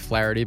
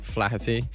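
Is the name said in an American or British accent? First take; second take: American; British. First: The name is said in an American accent. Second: The name is said in a British accent.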